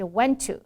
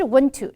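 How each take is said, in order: First: "went to" with an open eh in "went"; correct vowel. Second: "went to" said as "wunt to"; uh in place of eh in "went"; wrong vowel. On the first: Teacher correcting students, clear eh vowel in went. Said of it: "不是went to". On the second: Teacher showing what not to say, dull uh vowel. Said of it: "这个哎的音变成呃的音". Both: Shown as a demonstration.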